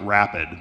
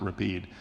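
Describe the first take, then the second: First: It is said like the English word rapid. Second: It is said with the European pronunciation. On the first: "looks like Rapid" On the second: "in Europe you pronounce it Rapide"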